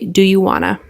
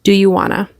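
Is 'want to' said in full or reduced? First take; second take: reduced; reduced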